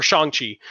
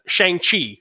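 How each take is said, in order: First: Shang-Chi with an "ah" vowel; corrected pronunciation. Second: Shang-Chi with SHANG rhyming with "hang"; plain first pronunciation. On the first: Correcting himself mid-sentence, Shang-Chi said as "shahng-chee". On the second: Speaker names the film, Shang-Chi said as "shayng-chee". Corrects own pronunciation of the name. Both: Real, not acted.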